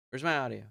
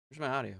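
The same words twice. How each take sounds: The two takes are said the same way.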